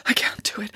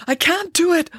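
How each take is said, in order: First: Softly muttered, slightly raised pitch; muttering. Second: High-pitched, more insistent protest; panicky, high-voiced refusal; distressed protest. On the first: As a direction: mutter it under your breath. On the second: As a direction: let the voice climb in dismay. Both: A narrator's reading. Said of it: "muttered Friday".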